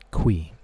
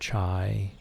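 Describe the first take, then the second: First: The name sounds like 'kwee'. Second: The name sounds like 'chai'. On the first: This is the pronunciation the creator revealed. "The pronunciation of this word right here, this name, is Qui" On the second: This is what other people called him. "or Mister Chai"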